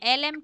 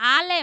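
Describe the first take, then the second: First: The first vowel is an 'eh' sound. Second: The first vowel is an 'ah' sound. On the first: The speaker calls it wrong. "এলেম কেন?" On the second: The speaker calls it right. "আ"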